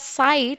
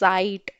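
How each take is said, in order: First: It begins with an S sound. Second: It begins with a Z sound. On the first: The speaker calls it wrong. "Instead of saying it as sight" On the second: The speaker calls it right. "I am saying it as Zeit"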